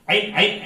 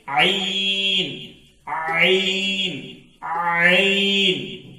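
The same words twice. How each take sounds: First: "عین" twice, quick and short, not stretched; short "عین" as a wrong example; cut short. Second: "عین" drawn very long from the throat; very slow, sustained, throaty "عین"; stretched out. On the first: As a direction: rattle off "عین" without holding it. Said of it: "اس طرح نہیں". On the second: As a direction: hold each "عین" slowly on a level tone. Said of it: "کھینچ کر ادا کرنا چاہیے". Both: Shown as a demonstration.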